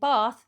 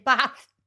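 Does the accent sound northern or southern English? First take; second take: southern; northern. First: It is said in a southern English accent. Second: It is said in a northern English accent. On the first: The speaker is from the south. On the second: The speaker is from the north.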